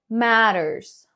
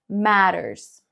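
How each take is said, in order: No difference in how they are said.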